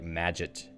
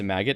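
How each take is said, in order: First: The middle consonant is a soft j sound. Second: The middle consonant is a hard g sound. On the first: The speaker calls it right. "like Maggot, magic, but git instead" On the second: The speaker calls it wrong. "I used to pronounce it Maggot"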